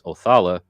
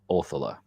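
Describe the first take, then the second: First: The stress falls on a later syllable. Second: The stress falls on the first syllable. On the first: This is the more popular way people say it. The speaker calls it wrong. "the rune that most people will say is Othala" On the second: This follows the older Germanic languages. The speaker calls it right. "the emphasis of the syllable ... mostly and usually lands on the front syllable"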